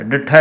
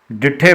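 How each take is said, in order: First: ਡਿਠਾ ending in a, the mistake; ਗਲਤ ਉਚਾਰਨ ਡਿਠਾ; wrong form ditha. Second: ਡਿਠੇ, ਲਾਂ ਨਾਲ; right form dithe. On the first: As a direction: show the wrong ਡਿਠਾ with a rise. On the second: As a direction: say ਡਿਠੇ with the lan vowel e at the end. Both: Shown as a demonstration. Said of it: "ਡਿਠਾ ਨਹੀਂ ਕਰਨਾ".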